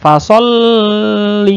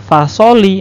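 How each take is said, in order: First: The L is held for too long. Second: The L is single and short, without pressing. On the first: "tidak boleh terlalu lama" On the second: "Itu sama saja tidak ada tasdidnya"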